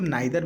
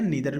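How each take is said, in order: First: The first vowel sounds like 'eye'. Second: The first vowel sounds like 'ee'. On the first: "बहुत लोग इसको नाइदर भी पढ़ते हैं" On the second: "नीदर भी पढ़ते हैं"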